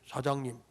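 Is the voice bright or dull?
dull. It is said in a dull, low pitch. The speaker seems unpleasant to the listener. The speaker calls it wrong. "이러면 재수가 온 붙어버려"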